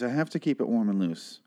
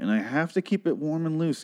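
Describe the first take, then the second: First: Mock erotic. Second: Said in the usual way. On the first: Podcaster repeating a warm-up line to listeners, mock erotic. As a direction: make the vocal warm-up sound jokingly erotic. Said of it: "It sounds very erotic when I say it that way". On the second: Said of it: "when I say it that way".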